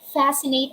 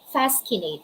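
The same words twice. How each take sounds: First: The C is silent, only an s sound. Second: The C is pronounced as a k sound. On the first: The speaker calls it right. "Letter C is silent" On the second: The speaker calls it wrong. "we're not going to say fascinate"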